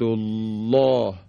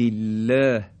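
First: The L is thick and heavy. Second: The L is thin and light. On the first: "حرف لام تقلیز میشه و درشت تلفظ میشه" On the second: "اینجا دیگه ترقیق و نازک"

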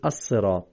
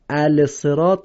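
First: The L is silent and the S is doubled. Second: The L sound is pronounced before the S. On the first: The speaker calls it right. "میگیم الصراط، چرا این لام رو نخوندیم؟" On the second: The speaker calls it wrong. "الصراط نمیگیم"

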